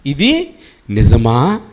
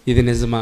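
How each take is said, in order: First: Slow, sly tempter's question; tempting serpent. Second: Said in the usual way. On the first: Acted. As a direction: drawl it out like the serpent luring her.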